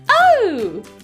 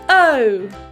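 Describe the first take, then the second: First: It is said in a funny, put-on voice. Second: It is said in a normal speaking voice.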